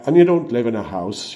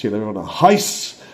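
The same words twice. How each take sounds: First: Said in the usual way. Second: Ulster "house" said "hice" with a rising end; Northern Irish accent. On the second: Shown as a demonstration. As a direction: Belfast "you live in a house", vowel pushed forward. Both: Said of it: "a little bit of Scottish".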